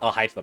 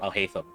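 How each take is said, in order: First: The name is said with an Arabic pronunciation. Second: The name is said with an English pronunciation. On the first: The speaker calls it right. "is meant to pronounce Al Haytham" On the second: The speaker calls it wrong. "not Al Haytham"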